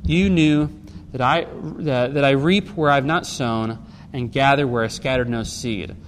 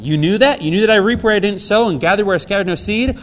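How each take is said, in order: First: Said in the usual way. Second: "You knew that?" louder, rising as an incredulous question. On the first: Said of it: "puts it as a question". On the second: Shown as a demonstration. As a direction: ask "You knew that?" with a challenging lift, keeping the voice raised to "no seed?". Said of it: "the E S V here puts it as a question".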